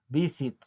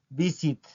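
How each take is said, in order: The two takes are said the same way.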